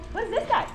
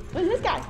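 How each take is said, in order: Both takes have the same delivery.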